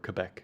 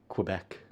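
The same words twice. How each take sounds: First: It is said with a local French-style pronunciation. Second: It is said with a plain English pronunciation.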